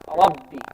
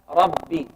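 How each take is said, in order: The two takes are said the same way.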